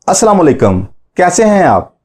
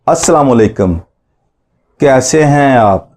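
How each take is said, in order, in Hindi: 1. इसे साफ़ तौर पर तेज़ गति से बोला गया है। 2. इसे धीमी, सामान्य गति से बोला गया है।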